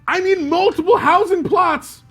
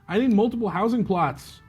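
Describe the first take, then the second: First: It is read loudly, with exclamatory energy. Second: It is read flatly, without much energy. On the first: The speaker calls it right. "Exclamation point" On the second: The speaker calls it wrong. "I didn't read it like that"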